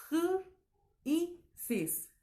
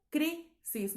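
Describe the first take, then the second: First: "cr, y sis" in three broken pieces, starting high; división incorrecta. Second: "crisis" in two high beats, cri - sis; división silábica correcta. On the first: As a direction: strand "cr", pause, "y", pause, "sis". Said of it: "No suena armónico". ("cr, y sis" partido, con la cr suelta) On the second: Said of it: "no es". ("crisis" separado en cri - sis) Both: Shown as a demonstration.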